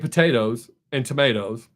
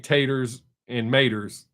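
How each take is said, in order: First: The words are said with all their syllables. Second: The words drop their first syllables. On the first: "I say potatoes and tomatoes" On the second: "I do say taters and maters from time to time"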